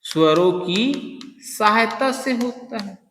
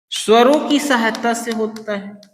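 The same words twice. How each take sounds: First: Slow, softer, drawn out for notes; slow dictation. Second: Said in the usual way. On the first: Shown as a demonstration. Teacher dictating the definition, slow and softer. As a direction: say it slowly so students can write. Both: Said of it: "मतलब वे वर्ण जिनका उच्चारण".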